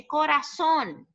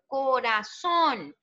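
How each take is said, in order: First: Said in the usual way. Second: "Coração" devagar, separando as sílabas até a última; sílaba tônica marcada. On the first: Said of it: "Qual é a, a tônica". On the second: Shown as a demonstration. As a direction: stretch "Coração" out, landing on its final syllable. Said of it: "a sílaba tônica?". ("Coração" pausado, com a última sílaba tônica)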